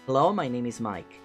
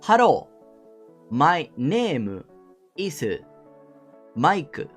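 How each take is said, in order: First: It is spoken with a British English accent. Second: It is spoken with a Japanese English accent. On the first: A native speaker introduces himself. "pronunciando bien con su acento british" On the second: A Japanese teacher 'corrects' the native speaker. "Que es como hablaría eh, un japonés inglés"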